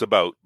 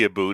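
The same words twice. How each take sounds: First: The vowel sounds like 'ow', as in 'out'. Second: The vowel sounds like 'oo', as in 'aboot'. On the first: This is how Canadians actually say it. The speaker calls it right. "it's about" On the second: This is the stereotyped Canadian way of saying it. The speaker calls it wrong. "most Canadians don't say about"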